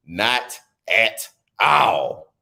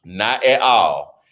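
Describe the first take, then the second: First: "Not at all." drawn out in a mock sob; mock crying. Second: Said in the usual way. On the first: Shown as a demonstration. Joking about the anchor, drawn-out mock crying. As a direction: stretch it out, pretend to cry. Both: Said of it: "repeated take".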